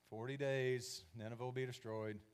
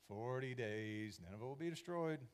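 First: It is said in a bored, half-hearted tone. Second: The same.

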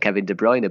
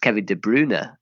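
First: The name is said in an anglicized way. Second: The name is said in its native way. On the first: This follows the popular trend. The speaker calls it wrong. "I call Kevin De Bruyne" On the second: This is the player's own pronunciation. The speaker calls it right. "His correct pronunciation is"

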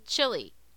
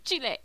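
First: It is said with an anglicized pronunciation. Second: It is said with the native Spanish pronunciation.

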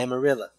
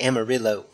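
First: The name is said in a Texan way. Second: The name is said in a non-Texan way. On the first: A Texan says it. "Did you catch how he said Amarillo?" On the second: Someone from outside Texas says it. "Texans don't say Amarillo. That's something for those of us that reside elsewhere"

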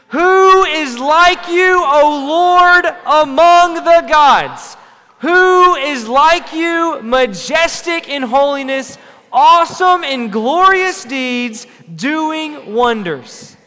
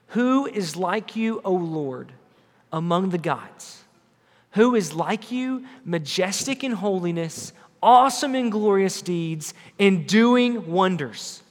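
First: It is shouted loudly and with energy. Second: It is read at a normal volume.

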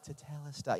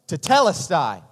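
First: It is said weakly, without emphasis. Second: It is said strongly, with emphasis.

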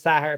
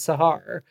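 First: The stress is on the first syllable. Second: The stress is on the second syllable.

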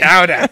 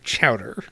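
First: It is said in a Massachusetts accent. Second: It is said in a general, unmarked accent. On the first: The speaker calls it right. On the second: The speaker calls it wrong.

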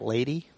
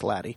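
First: It sounds just like the word 'lady'. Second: It sounds different from the word 'lady'. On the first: The speaker calls it wrong. "I kept on pronouncing it LADEE. Because I just like the idea of a lady" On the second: The speaker calls it right. "is pronounced LADEE"

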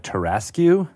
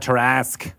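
First: The final 'que' is sounded out at the end. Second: The word ends with a plain 'ask' sound. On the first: Someone else said it this way. "they pronounced the Q at the end" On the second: This is how the speaker has always said it. "I've always pronounced Tarrasque that way"

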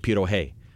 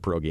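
First: The middle consonant is an h sound. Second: The middle consonant is a hard g sound. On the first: "she just keeps calling it pierohe" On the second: "all my adult life pierogi"

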